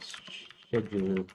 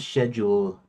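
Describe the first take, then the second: First: It is said with an American pronunciation. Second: It is said with a British pronunciation.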